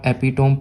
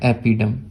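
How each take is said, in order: First: The word ends with a long 'tome' sound. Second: The word ends with a short 'dum' sound. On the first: The speaker calls it wrong. "इसको अगर आप एपिटोम पढ़ रहे हो ना, कोई बात नहीं" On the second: The speaker calls it right. "सही इसका उच्चारण ये है"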